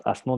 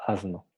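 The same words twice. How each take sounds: First: Asno with a hissed voiceless s; wrong voiceless s. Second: Asno with a soft buzzing z; voiced s. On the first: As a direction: say asno with a plain sharp s. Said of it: "porque no decimos asno". (asno con s sorda) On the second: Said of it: "decimos asno". (asno con s sonora, como azno) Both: Shown as a demonstration.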